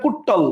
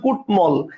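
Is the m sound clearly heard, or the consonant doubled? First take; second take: doubled; clear m. First: The t sound is doubled with no clear m. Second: The m sound after t is clearly pronounced. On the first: The speaker calls it wrong. "আমি কিন্তু বলি না কুট্টল" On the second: The speaker calls it right. "বলতেছি কুটমল"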